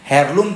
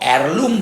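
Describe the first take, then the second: First: The word starts with an audible H sound. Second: The word starts directly with a vowel sound. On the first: The speaker calls it wrong. "તમે એને હેરલુમ તરીકે યાદ રાખશો તો બી ચાલશે" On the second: The speaker calls it right. "અહીંયા એચ silent છે એટલે ઈથી શરૂઆત કરીએ તો એરલુમ બોલી શકાય"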